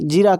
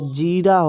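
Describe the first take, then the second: First: The first vowel is short and quick. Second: The first vowel is long and drawn out. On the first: The speaker calls it wrong. "जीरा जीरा कहते हैं" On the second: The speaker calls it right. "नहीं भैया जीरा होता है"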